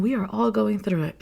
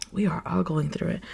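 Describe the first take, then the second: First: Said in the usual way. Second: Sighed, softer. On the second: Real, not acted. Repeats the reassurance after a sigh.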